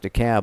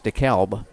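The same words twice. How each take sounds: First: The L in the name is silent. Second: The L in the name is pronounced. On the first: This is how it is said locally in Georgia. "Took me the longest time to forget about the L in DeKalb" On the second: This is how it is said in the Midwest. "up in the Midwest it's DeKalb"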